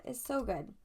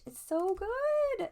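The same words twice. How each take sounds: First: Said in the usual way. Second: Excited whisper, much higher, slow; gushing whisper. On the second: Real, not acted. Gushing over the tarot card in a high, slow excited whisper. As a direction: breathe it out in awe.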